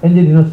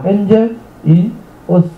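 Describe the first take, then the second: First: The three words run together as one. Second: The three words are said separately.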